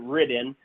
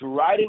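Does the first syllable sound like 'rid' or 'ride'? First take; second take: rid; ride. First: The first syllable sounds like 'rid'. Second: The first syllable sounds like 'ride'. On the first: The speaker calls it wrong. "A lot of people pronounce it Ridden" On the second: The speaker calls it right. "but it's Ryden"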